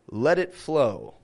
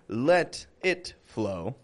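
First: A flap T links let and it together. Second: A clear T separates let from it. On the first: The speaker calls it right. "but let it flow" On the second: The speaker calls it wrong. "I'm not saying let it flow"

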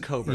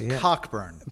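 First: The name is said with no k sound. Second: The name is said with a clear k sound. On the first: It is the accepted pronunciation. The speaker calls it right. "but it's Coburn" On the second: It is read as it is spelled. The speaker calls it wrong. "it says Cockburn"

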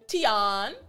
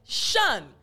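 First: The syllable begins with a t sound. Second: The syllable begins with a sh sound. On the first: The speaker calls it wrong. "instead of T-I-O-N, tion" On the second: The speaker calls it right. "it's actually shun"

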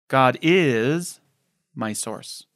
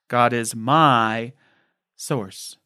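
First: The stress is on the word is. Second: The stress is on the word my.

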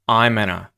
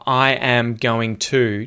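First: The words are contracted, with 'going to' reduced to 'gonna'. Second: The words are said in full, with 'going to' clearly pronounced. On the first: "changes into I'm gonna" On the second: "Did you notice how I am going to changes into"

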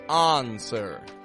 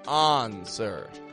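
The two takes are said the same way.

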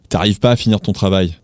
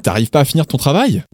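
First: The voice falls at the end like a statement. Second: The voice rises at the end like a question. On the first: It states a fact. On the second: It asks a question.

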